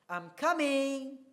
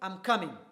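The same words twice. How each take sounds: First: The voice rises at the end. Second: The voice stays flat and firm. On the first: The speaker is being polite. The speaker calls it right. "the rising intonation will imply politeness" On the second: The speaker is being rude. The speaker calls it wrong. "the voice is, is very flat and is very firm"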